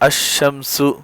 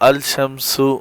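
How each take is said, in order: First: The 'l' merges into a doubled 'sh' sound. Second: The 'l' is clearly pronounced before 'sh'. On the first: The speaker calls it right. "जैसे अशमसु" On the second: The speaker calls it wrong. "इसको अल शमसु नहीं पढ़ेंगे"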